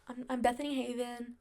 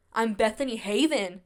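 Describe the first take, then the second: First: Softer, hesitant self-introduction; shy, half-swallowed name; timid. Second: Firm, proud name with a falling end; bold. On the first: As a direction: say your name unsure of yourself. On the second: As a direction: own your name, stand tall. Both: Shown as a demonstration. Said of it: "more bold".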